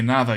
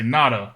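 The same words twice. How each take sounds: First: The middle consonant is a soft th sound. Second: The middle consonant is a hard d sound. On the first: The speaker calls it right. "if you have a D between two vowels, it is a T H sound" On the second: The speaker calls it wrong. "you don't say nada"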